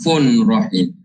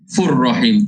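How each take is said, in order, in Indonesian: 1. Bunyi n dikekalkan dengan dengung. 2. Bunyi n bergabung ke r tanpa dengung. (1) "jangan fun rahim" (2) "Dia baca tanpa dengung. Tanpa dengung. Fur rahim terus"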